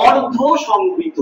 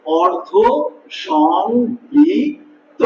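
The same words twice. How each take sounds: First: অর্ধ সংবৃত said slowly; introducing a new term. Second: অর্ধ, a pause, then সংবৃত drawn out very slowly; spelling out the term for students; syllable by syllable. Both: Shown as a demonstration. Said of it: "সেটাকে বলতে আমরা বলি".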